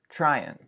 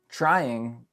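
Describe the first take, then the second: First: The final G sound is dropped. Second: The final G sound is pronounced.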